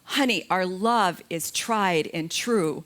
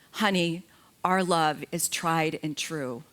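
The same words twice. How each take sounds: First: It is said as loud as possible. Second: It is said at a normal, quiet volume.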